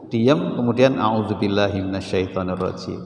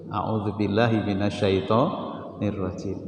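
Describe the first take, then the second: First: Said in the usual way. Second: Murmured slowly as a prayer for refuge; slow, quiet recitation. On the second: Shown as a demonstration. Preacher showing the congregation how to seek refuge, slow quiet prayer. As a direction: recite it slowly and softly to calm yourself. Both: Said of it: "Itu caranya begitu".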